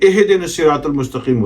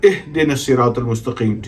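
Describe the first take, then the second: First: The h sound is followed by an i vowel. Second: The h sound carries no vowel after it. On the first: The speaker calls it wrong. "गलत है" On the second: The speaker calls it right. "ठीक है"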